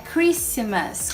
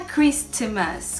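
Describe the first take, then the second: First: No T sound is heard. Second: A clear T sound is heard. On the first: The speaker calls it right. "é Christmas, Christmas, sem o T mesmo" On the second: The speaker calls it wrong. "não é Christmas, com esse som de T"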